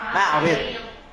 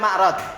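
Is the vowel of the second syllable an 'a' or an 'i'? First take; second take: i; a. First: The second syllable has an 'i' vowel. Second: The second syllable has an 'a' vowel. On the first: The speaker calls it right. "yang benar apa? Ma'rid" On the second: The speaker calls it wrong. "Sebagian orang bacanya ma'rad"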